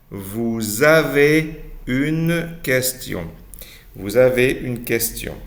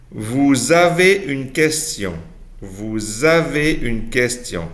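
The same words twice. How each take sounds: The two takes are said the same way.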